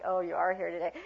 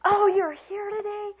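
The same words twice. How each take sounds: First: Underwhelmed acknowledgment of an arrival; unenthusiastic welcome. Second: High, loud, drawn-out delight; slow, pitched-up excited greeting; enthusiastic welcome. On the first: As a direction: greet them without any enthusiasm. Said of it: "Not like". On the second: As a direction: gush that they've turned up. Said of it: "Change that whole thing". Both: Shown as a demonstration.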